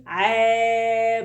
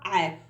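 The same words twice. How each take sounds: First: عا held long on a steady note; long vowel. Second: عا as one brief syllable; short vowel. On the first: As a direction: sustain the vowel of عا. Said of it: "وطولي صوتك بقى". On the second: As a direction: say عا short, no stretching. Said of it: "قصيرة طبعًا". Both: Shown as a demonstration.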